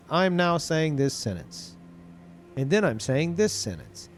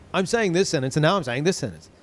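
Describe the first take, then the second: First: Unhurried mock narration with a clear gap before "and then I'm saying this sentence"; slow, with a pause between sentences. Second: "I'm saying this sentence" running straight into "and now I'm saying this sentence" with no gap; jump-cut delivery, sentences jammed back to back; no pause, cut together. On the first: Vlogger showing a YouTube line before editing, with a pause between sentences. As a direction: leave a beat of silence after "I'm now saying this sentence". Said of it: "to have, like, no space between the sentences".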